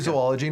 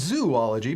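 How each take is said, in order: First: The first syllable sounds like 'zoe'. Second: The first syllable sounds like 'zoo'. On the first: The speaker calls it right. "Notice I say zoology" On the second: The speaker calls it wrong. "not zoology, because zoology would require three O's in a row"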